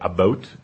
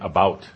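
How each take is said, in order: First: It is said in a Canadian accent. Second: It is said in a non-Canadian accent. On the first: "you say about" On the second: "instead of saying about"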